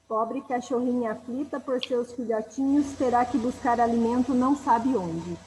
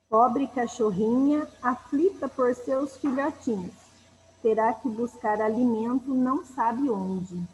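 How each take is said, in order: First: It is read at a normal pace. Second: It is read more slowly.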